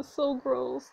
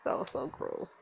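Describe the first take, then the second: First: Said in the usual way. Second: Whispered so gross; disgusted whisper. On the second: Real, not acted. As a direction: hiss out disgust under the breath. Disgust at Victor.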